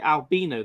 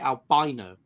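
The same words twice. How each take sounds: First: It is pronounced the non-American, British way. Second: It is pronounced the American way. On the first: "Americans don't say albino" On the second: "they say albino"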